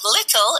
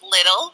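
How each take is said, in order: First: The middle consonant is a clear T sound. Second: The middle consonant sounds like a soft D. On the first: "we don't say T's" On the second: "we say T's as D's"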